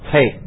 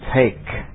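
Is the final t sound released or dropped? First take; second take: dropped; released. First: The final t sound is not heard. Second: The final t sound is clearly released. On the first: The speaker calls it wrong. "Jadi enggak boleh take" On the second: The speaker calls it right. "ini belakangnya harus bunyi karena ke bunyi ledak juga"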